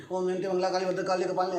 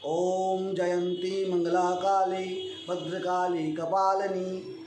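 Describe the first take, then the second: First: Fast, gabbled Om Jayanti Mangla Kali; rushed recitation. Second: Slow, even Om Jayanti Mangla Kali; measured recitation. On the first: Teacher showing the wrong way: rushed. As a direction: race through the mantra. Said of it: "ऐसे नहीं". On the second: Teacher showing the right way: measured pace. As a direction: recite at a steady unhurried pace. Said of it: "अति शीघ्रम पाठ नहीं करना चाहिए". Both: Shown as a demonstration.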